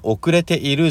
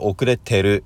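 First: The middle i sound is fully pronounced. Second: The middle i sound is dropped. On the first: This is the full form. "遅れているじゃなくて" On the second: This is the casual conversational form. "会話の時にはね、遅れてるいがなくなります"

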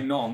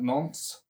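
First: The name is said with a French accent. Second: The name is said with an English accent. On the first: The speaker calls it right. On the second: The speaker calls it wrong.

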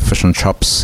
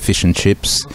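First: The vowel in 'chips' sounds like a 'u'. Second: The vowel in 'chips' is a clear 'i'.

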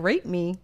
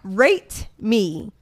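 First: The word rate is slurred and unclear. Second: The word rate is carefully and clearly enunciated. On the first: The speaker calls it wrong. "Because that was like, I'm like, rate me" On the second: The speaker calls it right.

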